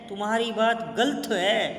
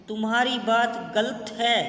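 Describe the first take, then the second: No difference in how they are said.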